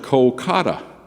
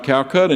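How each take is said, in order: First: It is said as Kolkata. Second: It is said as Calcutta. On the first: This is the current, restored form of the name. "back to the old Indian pronunciation" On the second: This is the old, replaced form of the name. "it's not Calcutta anymore"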